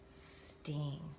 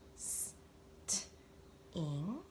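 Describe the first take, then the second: First: The word is said quickly, as one piece. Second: The word is said slowly, split into parts. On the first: "Read it fast" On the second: "Let's read it slow"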